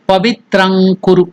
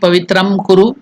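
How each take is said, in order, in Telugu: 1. మొదటి పదం ng ధ్వనితో ముగుస్తుంది. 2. మొదటి పదం m ధ్వనితో ముగుస్తుంది. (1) "So that Nga has to be pronounced here" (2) "It should neither be Pavitram Kuru"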